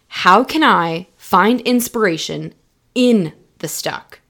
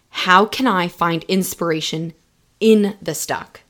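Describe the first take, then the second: First: It is said louder. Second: It is said at normal volume.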